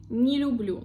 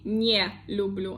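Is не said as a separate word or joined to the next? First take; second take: joined; separate. First: Не is joined to the next word, unstressed. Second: Не is said apart, as its own word. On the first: The speaker calls it right. "I say не люблю, like one word" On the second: The speaker calls it wrong. "I don't say не люблю"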